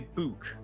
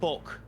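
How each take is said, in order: First: The vowel is said in the northern way. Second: The vowel is said in the local way. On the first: "if you go up north about thirty, forty miles, you will hear people say book" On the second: "Where I'm from, we call it a book"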